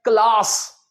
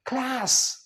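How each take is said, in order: First: CLASS as "klaas"; British-Indian pronunciation. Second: CLASS as "klæs", pitched higher; American pronunciation. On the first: Teacher showing how we say it, "klaas" क्लास. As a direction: say क्लास with long open aa. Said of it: "हम बोलते हैं". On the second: Teacher answering for American English, "klæs" क्लास. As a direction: say क्लास with cat-like a. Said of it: "American English में इसे क्या बोल देंगे". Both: Shown as a demonstration.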